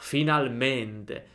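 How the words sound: It is said with a sigh of relief. The speaker feels relief after waiting. "Sollievo, sono sollevato"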